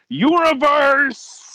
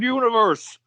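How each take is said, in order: First: The word is said loudly, with excitement. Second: The word is said flatly, without excitement.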